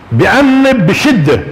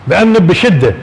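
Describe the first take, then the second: First: بأنب drawn out slowly and lifted; stress on بأنب. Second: Said in the usual way. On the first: Shown as a demonstration. Teacher stressing بأنب while explaining the word. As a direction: stretch بأنب to show harsh scolding.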